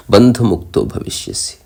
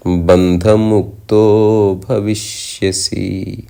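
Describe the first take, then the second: First: Said in the usual way. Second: Slow, drawn-out chanted line; chanted, intone బంధముక్తో భవిష్యసి as sacred verse; chanted verse ending; shloka chant. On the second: Acted.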